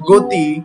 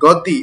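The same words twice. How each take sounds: First: The first vowel is a closed 'o' sound. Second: The first vowel is an open 'aw' sound. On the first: The speaker calls it right. "উচ্চারণটা হচ্ছে গো।" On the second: The speaker calls it wrong. "আমরা যেমন গ পড়ি গতি, এভাবে কিন্তু বলি না"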